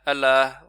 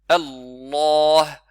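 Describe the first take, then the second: First: The L sound is short and not held. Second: The L sound is held before release. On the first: The speaker calls it wrong. "On dit pas Allah, Allah, vous voyez comme ça, sans shadda" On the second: The speaker calls it right. "c'est comme si vous attrapez la lettre, en fait, et puis vous la libérez"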